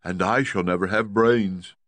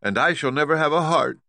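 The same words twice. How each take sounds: First: Lightly voiced Scarecrow, near plain; a hint of a glum Scarecrow. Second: Higher, louder Tin Woodman; sorrowful Tin Woodman lament. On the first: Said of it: "added the Scarecrow". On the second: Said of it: "spoke the Tin Woodman". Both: A narrator's reading.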